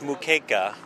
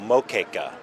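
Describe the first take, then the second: First: The first vowel sounds like 'oo'. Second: The first vowel sounds like 'oh'. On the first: "it's Moqueca" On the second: "I've seen it spelled with an O"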